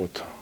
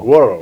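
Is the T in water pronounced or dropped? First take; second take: pronounced; dropped. First: The T is clearly pronounced in two syllables. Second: The T is dropped, giving a short blended sound. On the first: This is how it is said in Britain. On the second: This is how it is said in America.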